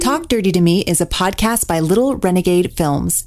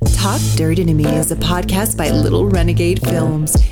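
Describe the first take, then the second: First: It is read in a plain, ordinary voice. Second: It is read in a sultry, sexy voice.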